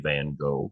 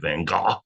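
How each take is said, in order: First: The name is said with an American pronunciation. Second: The name is said with a European pronunciation. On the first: "I use the American pronunciation" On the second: "I don't say Van Gogh because I'm not European"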